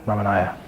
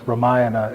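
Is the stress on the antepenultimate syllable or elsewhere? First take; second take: elsewhere; antepenultimate. First: The stress is not on the antepenultimate syllable. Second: The stress is on the antepenultimate syllable. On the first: The speaker calls it wrong. "rather than Ramanaya" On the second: The speaker calls it right. "you stress the uh, the anti-penultimate syllable, so it's Ramayana"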